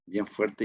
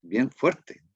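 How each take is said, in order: First: Said in the usual way. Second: "bien" lifted higher; stressed bien. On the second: Shown as a demonstration. Preacher stresses "bien" to mark a strong phrase. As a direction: lean on "bien" with a rise. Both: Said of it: "Es una frase bien".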